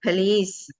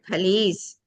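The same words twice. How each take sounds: The two takes are said the same way.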